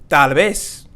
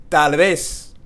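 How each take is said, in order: The two takes are said the same way.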